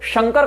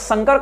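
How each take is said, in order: First: The word begins with an 'sh' sound. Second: The word begins with an 's' sound. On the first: It means the god Shiva, the benefactor. "अर्थ होगा शिव कल्याणकर्ता" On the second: It means a hybrid mixture. "अर्थ होगा ये दोगला मिश्रण"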